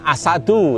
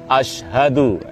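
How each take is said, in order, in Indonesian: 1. Bunyi sh dan h hilang. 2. Bunyi sh dan h terdengar jelas. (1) "Jangan asadu" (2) "tapi asyhadu"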